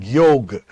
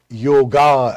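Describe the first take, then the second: First: The word ends on a consonant sound. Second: The word ends with a final vowel sound. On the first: It is a decolonized, native pronunciation. The speaker calls it right. "start saying yog" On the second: It is a colonial, anglicized pronunciation. The speaker calls it wrong. "we resist the temptation of saying yoga"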